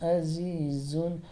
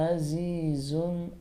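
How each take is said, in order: No difference in how they are said.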